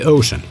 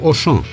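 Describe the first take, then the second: First: It is said like the English word ocean. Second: It is said the French way, two syllables.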